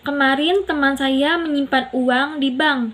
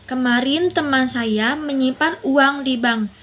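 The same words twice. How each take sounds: First: The word teman carries the main stress. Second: The word uang carries the main stress. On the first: It was a friend, not a relative. "Teman bukan saudara" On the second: It was money, not goods or gold. "uang bukan barang atau emas"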